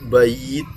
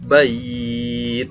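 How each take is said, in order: First: The vowel is held for two counts. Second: The vowel is held for four counts. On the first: "Boleh dibaca dua" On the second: "boleh dibaca empat"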